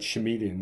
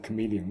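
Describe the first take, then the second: First: The word begins with a sh sound. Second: The word begins with a k sound. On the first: "Tom Baker said chameleon" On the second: "instead of chameleon"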